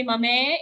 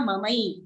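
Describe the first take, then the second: First: Mame with a plain short e ending, the wrong way. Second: Mamai ending in a clear ai glide; correct mamai. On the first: Teacher demonstrating the wrong mame, plain e ending. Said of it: "don't say mame". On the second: Teacher modelling the right mamai, ai glide. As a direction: open the end of mamai into ai. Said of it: "it's a I ki matra". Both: Shown as a demonstration.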